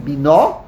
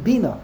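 First: "bina" with the stress on the final NA; stress on second syllable. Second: "bina" with the stress on BI; stress on first syllable. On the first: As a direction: hit the last syllable of "bina": bi-NA. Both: Shown as a demonstration. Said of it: "Where do you put the emphasis?".

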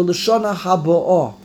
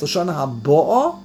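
First: Haba'ah stressed on the final AH, falling tune; stress on the aleph. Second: Haba'ah stressed on BA, ending in a rise; stress on the bays. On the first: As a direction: push the weight onto the end of Haba'ah. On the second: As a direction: punch the BA in Haba'ah, not the ending. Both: Shown as a demonstration. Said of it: "how you pronounce the word".

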